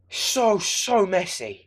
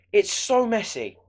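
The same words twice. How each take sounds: First: "so" drawn out slowly and heavily, falling at the end; slow emphatic repeat. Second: Said in the usual way. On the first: Shown as a demonstration. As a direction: linger on each "so" to drive it home.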